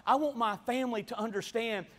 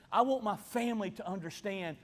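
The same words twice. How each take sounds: The two takes are said the same way.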